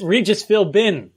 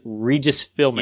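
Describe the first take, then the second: First: "Philbin" with a clear B sound, slow; careful "Philbin", B pronounced; corrected pronunciation. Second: "Philbin" said like "Filmin" with the B dropped; "Philbin" without the B, slow; wrong pronunciation. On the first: Shown as a demonstration. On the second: Real, not acted. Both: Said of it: "I always forget to pronounce the B".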